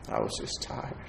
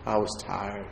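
First: Breathy whispered repeat. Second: Said in the usual way. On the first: Shown as a demonstration. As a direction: drop it to a bare whisper. Repeating the line, quieter the second time.

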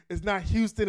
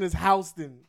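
First: Houston said loudly with a HYOO start; Houston as HYOO-ston. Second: Houston said loudly with a HOW start; Houston as HOW-ston. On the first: Friend rejecting the wrong way to say it, Houston as HYOO-ston. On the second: Friend insisting on the local way to say it, Houston as HOW-ston. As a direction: say "Houston" like the New York street, HOW-ston. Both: Shown as a demonstration.

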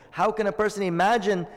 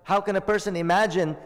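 No difference in how they are said.

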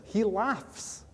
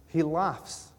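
First: HE said high, pitch leaping up on the word he; emphatic He laughs. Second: Said in the usual way. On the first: Shown as a demonstration. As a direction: lift He high, then let laughs fall.

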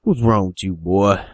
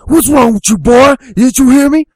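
First: Lightly voiced hillbilly father, holding back; understated crazy-dad questioning; crazed hillbilly dad. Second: High, loud hillbilly shout; angry hillbilly dad. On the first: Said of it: "looks at him all crazy". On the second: Acted. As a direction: explode at the boy at full volume. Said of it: "the old hillbilly dad's like".

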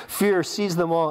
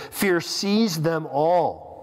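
First: "Fear" pushed forward, the rest a bit slower; stress on fear. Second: Very slow, weighty reading of "Fear seized them all."; read slowly. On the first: Pastor repeating the verse, stress on the first word. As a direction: lean into "Fear" in "Fear seized them all,". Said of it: "it says". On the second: Pastor reading Scripture aloud, slow and weighty. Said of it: "Fear seized them all," it says". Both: Shown as a demonstration.

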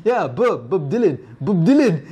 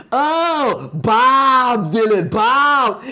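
First: Put-on French accent. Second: Hammed-up dawning realization, high, with long drawn-out vowels. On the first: [name] repeating himself to [name], French accent. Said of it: "in his French accent". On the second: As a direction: imitate an American finally getting it, slow and high. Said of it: "[name] looks at him".

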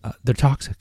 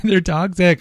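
First: Said in the usual way. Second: High, mock-ominous repeat of they're toxic; mock dramatic. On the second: Host hamming up the danger of candles, mock alarm. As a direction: raise the pitch and lean on toxic with fake alarm.

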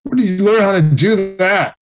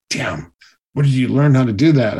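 First: Higher, surprised question; playing the coach's amazement at a first try; amazed. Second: A jealous coach forced to admit it; grudging. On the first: Stunt coach amazed by a gymnast's first flip, asks higher. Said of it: "and he was like". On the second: Retold or imitated. Jealous coach grudgingly asks where he learned the flips. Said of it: "he was so mad".

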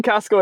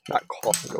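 First: Costco said plainly with an s, kʰæskoʊ; pronunciation demo. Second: Costco whispered with an extra vowel, kʰɔsəko; mocking a friend's Costco in a whisper; mock pronunciation. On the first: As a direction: say Costco the normal way, Cost-co. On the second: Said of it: "you say it like the second C is a K". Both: Shown as a demonstration.

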